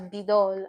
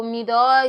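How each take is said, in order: First: Bido said with a B at the start; B-like pronunciation. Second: Mido said with an M at the start; spelled-out pronunciation. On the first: Teacher showing learners the spoken form, Bido with a B. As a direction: begin Bido on a B in place of M. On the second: Teacher reading the Korean word as written, Mido with an M. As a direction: begin Mido on a humming M. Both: Shown as a demonstration. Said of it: "you pronounce it as Bido".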